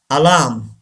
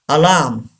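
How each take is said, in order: No difference in how they are said.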